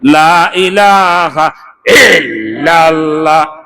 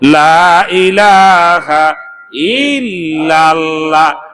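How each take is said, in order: First: The phrase sounds caught deep in the throat. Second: The phrase is formed clearly with the tongue. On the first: The speaker calls it wrong. "গলার মধ্যে লা ইলাহা ইল্লাল্লাহ আটকাইছে" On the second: The speaker calls it right. "কণ্ঠ দিয়ে বলা যাবে না, মুখ দিয়ে বলবেন, জিহ্বা দিয়ে বলবেন"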